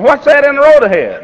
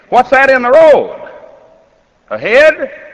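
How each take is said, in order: First: It runs on with no break before "ahead". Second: There is a break before "ahead".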